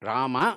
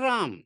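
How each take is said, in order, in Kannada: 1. ಕೊನೆಯ ಸ್ವರವನ್ನು ಪೂರ್ತಿಯಾಗಿ ಉಚ್ಚರಿಸಲಾಗುತ್ತದೆ. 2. ಕೊನೆಯ ಸ್ವರ ಬಿಟ್ಟುಹೋಗುತ್ತದೆ, ವ್ಯಂಜನದಲ್ಲಿ ಕೊನೆಯಾಗುತ್ತದೆ. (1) "ರಾಮ ಅಂತಲೇ ಹೇಳೋದು. ರಾಮಚಂದ್ರ ಅಂತ ಬಾಯಿ ಬಿಟ್ಟು ಪೂರ್ಣವಾಗಿ ನಾವು ಹೇಳ್ತೇವೆ" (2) "ಅವರು ರಾಮ್"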